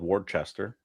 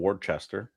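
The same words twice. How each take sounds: First: The name is said fully, following the spelling. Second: The name is said fully, following the spelling.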